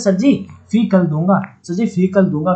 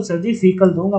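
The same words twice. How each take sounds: First: sir जी फीकल दूंगा with फी and कल split; split into fee and kal. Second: Said in the usual way. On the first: Shown as a demonstration. (फीकल को फी और कल में तोड़कर बोलना) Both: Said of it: "फीकल दूंगा मतलब फी मतलब".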